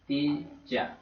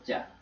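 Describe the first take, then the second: First: The second word is reduced to a weak 'ya'. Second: The words blend into a single 'ja' sound. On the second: "Or just ja?"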